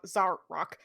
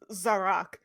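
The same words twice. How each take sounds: First: A glottal stop breaks the middle of the word. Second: The middle is said smoothly with no glottal stop.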